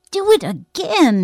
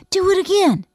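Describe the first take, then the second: First: Slow, loud, high-pitched demand; insistent. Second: High, loud excited urging; eager request. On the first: Boy shakes his friend's arm for an encore, insistent. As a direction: press hard, stretching each word. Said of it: "he insisted". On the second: Boy wants to hear the scream repeated, loudly eager. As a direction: ask keenly for an encore. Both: A narrator's reading.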